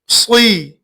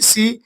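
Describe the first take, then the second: First: The syllable is said heavy, with a full mouth. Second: The syllable is said light, with a thin mouth. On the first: The speaker calls it right. "इसको पूर्व पढ़ना है" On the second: The speaker calls it wrong. "लेकिन ये गलत है"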